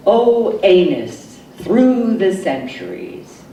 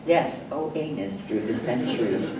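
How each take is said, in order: First: Said in the usual way. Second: Much softer, murmured aside repeating the refrain; hushed echo. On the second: Acted. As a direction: drop it to a near murmur, faster.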